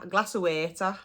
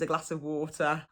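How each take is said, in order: First: Said with a Black Country dialect pronunciation. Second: Said with a standard English pronunciation. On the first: "if somebody says waiter" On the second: "they mean water"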